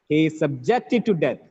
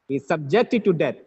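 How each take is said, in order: Both takes have the same delivery.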